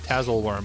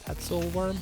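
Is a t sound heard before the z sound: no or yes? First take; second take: no; yes. First: The second t sound is left out. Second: The second t sound is pronounced. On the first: The speaker calls it wrong. "I guess I was saying Tazzle worm" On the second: The speaker calls it right. "but I think it's Tatzel"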